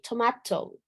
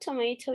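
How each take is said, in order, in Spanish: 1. Se dice con acento británico. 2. Se dice con acento estadounidense. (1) "British would be tomato" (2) "but that's American English"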